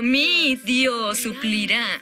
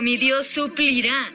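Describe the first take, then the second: First: The stress falls on the word mi. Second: The stress falls on the word suplirá. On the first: The promise is personal to the speaker. "Lo hace personal, mi Dios" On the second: The provision is a certain promise. "Y es una promesa, ... la palabra suplirá"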